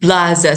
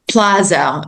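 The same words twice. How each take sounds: First: The word begins with a B sound. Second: The word begins with a P sound. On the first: "so it's a b because we don't have p" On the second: "they can't say the p"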